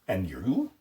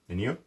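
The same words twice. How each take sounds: First: The word 'you' is emphasized. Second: The word 'you' is not emphasized.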